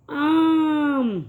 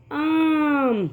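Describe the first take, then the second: First: "آم" with the آ held very long; long drawn آ sound like a teacher. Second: Said in the usual way. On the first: Shown as a demonstration. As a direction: stretch the آ in "آم" slowly. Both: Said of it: "اس کی آواز تھوڑی کھچ کے آتی ہے".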